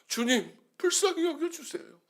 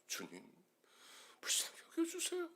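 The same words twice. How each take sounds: First: It is said at a somewhat softer volume. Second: It is barely voiced, almost a whisper. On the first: "십이 포인트로 썼다가" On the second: "나중에는 목소리조차 나오지 않아서"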